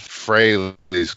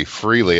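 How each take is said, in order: First: Fraley's said "Fray-leez", rhyming with Haley's; correct [name] pronunciation. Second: [name] said as "Freely", long ee sound; mispronounced [name]. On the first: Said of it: "Haley's Comet rhymes with Fraley's". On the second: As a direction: say [name] like "free-lee". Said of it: "where it's just been always [name]". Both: Shown as a demonstration.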